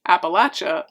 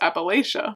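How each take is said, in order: First: It is said the way southerners say it. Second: It is said the way northerners say it. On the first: The speaker is from the south. "people in the south say" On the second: The speaker is from the north. "we both grew up in the area"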